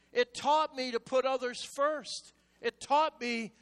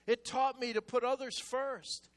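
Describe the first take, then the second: First: Repeated louder to drive it home. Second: Firm first call to the congregation; emphatic preaching. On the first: Preacher repeating to congregation, louder and pressing. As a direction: hammer it at them again. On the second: Preacher to congregation, stating it firmly. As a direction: state it as a teaching line. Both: Shown as a demonstration.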